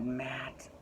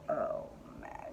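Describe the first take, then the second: First: Said in the usual way. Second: A soft breathy sigh of longing; whispered swoon over a crush. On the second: Real, not acted. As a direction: sigh his name, smitten. Swooning over hot steward.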